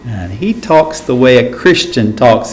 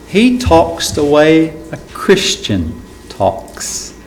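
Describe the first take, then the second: First: Said in the usual way. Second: Slow, softer, every word weighted, stress on "talks"; slow emphatic stress. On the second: Shown as a demonstration.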